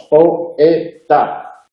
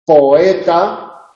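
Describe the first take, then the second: First: Poeta dicho po, e, ta, con cada sílaba suelta; tres sílabas separadas. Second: Said in the usual way. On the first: Shown as a demonstration. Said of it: "tres sílabas". (poeta silabeado, con la o y la e en sílabas distintas) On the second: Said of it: "hay un encuentro de vocal".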